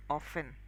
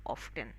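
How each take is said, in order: First: "often" pronounced "offen"; no T at all in "often"; silent T. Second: "often" pronounced "off-ten"; sounded T. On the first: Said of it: "The T is silent". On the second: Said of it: "many people might just go ahead and use". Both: Shown as a demonstration.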